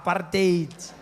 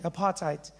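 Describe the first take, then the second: First: The word sounds harsh and guttural. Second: The word sounds soft and pleasant.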